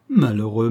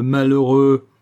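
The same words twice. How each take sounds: First: Said in the usual way. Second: Louder anguished cry of malheureux. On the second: Acted. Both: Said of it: "malheureux repeated".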